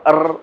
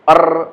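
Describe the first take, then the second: Both takes have the same delivery.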